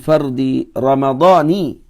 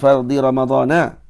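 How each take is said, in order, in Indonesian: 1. Kata terakhir berakhir dengan vokal 'ee'. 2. Kata terakhir berakhir dengan vokal 'ah'. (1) "mesti dibaca dengan jar"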